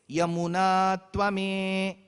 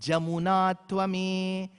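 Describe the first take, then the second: First: The first word begins with a Y sound. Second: The first word begins with a J sound. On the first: This is how the verse is recited in the south. "the rik says" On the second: This is how the verse is recited in the north. "people in the north said"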